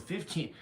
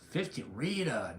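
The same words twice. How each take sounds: First: "fifteen." said higher with firm correcting stress; firm correction, "fifteen." stressed and pitched up. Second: Said in the usual way. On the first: Shown as a demonstration. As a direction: lean on "fifteen." to set Rita straight. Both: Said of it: "no, fifteen".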